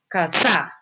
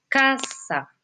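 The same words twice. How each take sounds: First: The stress is on the second syllable. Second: The stress is on the first syllable. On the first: The speaker calls it wrong. "usted no dice casa" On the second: The speaker calls it right. "su acento está en K"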